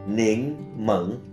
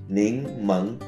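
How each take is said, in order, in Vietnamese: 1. Đây là cách phát âm đại lục của từ này. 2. Đây là cách phát âm đại lục của từ này.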